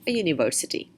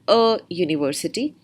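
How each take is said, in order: First: The two words are joined into one unit. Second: The two words are said as separate units. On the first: The speaker calls it right. "club a and university together" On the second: The speaker calls it wrong. "Instead of saying"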